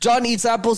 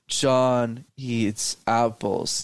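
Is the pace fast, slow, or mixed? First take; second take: fast; slow. First: It is said too fast throughout. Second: It is said too slowly throughout.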